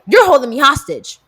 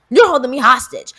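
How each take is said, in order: First: Loud accusing complaint; mock indignant. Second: Mock indignant. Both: Repeated complaint.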